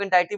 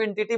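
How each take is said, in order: First: "एंटिटी" said as en-TY-tee; long-i pronunciation. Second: "एंटिटी" said as EN-ti-tee; short-i pronunciation. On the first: Teacher showing the other way people say the term, "एंटिटी" as en-TY-tee. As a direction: say "एंटिटी" with an "eye" sound in the middle. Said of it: "कई लोग एंटिटी बोलते हैं". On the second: Teacher showing how some people say the term, "एंटिटी" as EN-ti-tee. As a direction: say "एंटिटी" with a short i in the middle, no "eye" sound. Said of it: "उसको कई लोग एंटिटी बोलते हैं". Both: Shown as a demonstration.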